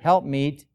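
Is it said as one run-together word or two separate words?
one word. It is said as one run-together word. The speaker calls it wrong. "many times pronounced as one word"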